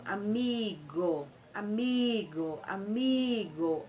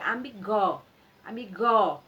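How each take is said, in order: First: Amigo with MI drawn out very slowly; stress on MI. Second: Amigó wrongly stressed on an open last GÓ; stress on final GO. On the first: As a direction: stretch the MI in each amigo. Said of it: "é o mi". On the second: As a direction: throw the weight onto the end of amigó. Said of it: "Porque se fosse o go". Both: Shown as a demonstration.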